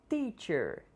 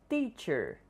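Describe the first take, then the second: No difference in how they are said.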